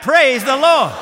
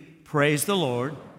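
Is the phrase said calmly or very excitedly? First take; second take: very excitedly; calmly. First: It is said loudly with great excitement. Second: It is said with fairly calm, low energy. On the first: "Give it all you got" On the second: "each time I want you to get a little more excited about it"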